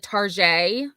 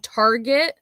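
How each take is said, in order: First: It is said like French 'tar-zhay'. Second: It is said the ordinary English way. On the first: "if you're feeling really bougie" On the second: "So Target"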